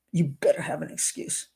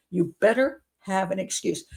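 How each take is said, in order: First: You better have an excuse hissed in a low whisper; menacing whisper. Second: Said in the usual way. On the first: Retold or imitated. Showing how nasty the fiance's text is, creepy whisper. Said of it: "he's being nasty to her".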